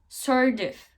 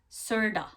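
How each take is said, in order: First: Of is said as a full separate word. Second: Of is reduced to a short 'a' sound.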